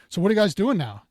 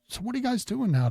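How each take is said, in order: First: The question sounds blunt and uninterested. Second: The question sounds curious and interested. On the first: The speaker calls it wrong. "you're not saying" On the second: The speaker calls it right. "curious tone"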